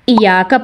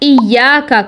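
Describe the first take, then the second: First: The y sound is short. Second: The y sound is doubled. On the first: The speaker calls it wrong. "मुखफ़फ़" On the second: The speaker calls it right. "मुशद्दद"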